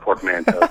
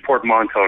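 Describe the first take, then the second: First: The word is said with an English pronunciation. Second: The word is said with a French pronunciation. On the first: The speaker calls it wrong. "not portmanteau" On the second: The speaker calls it right. "it's actually portmanteau"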